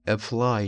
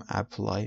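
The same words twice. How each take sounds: First: The first vowel is a weak, short 'uh'. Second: The first vowel is a full open 'a'. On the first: The speaker calls it right. "میگیم apply" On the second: The speaker calls it wrong. "نمیگیم apply"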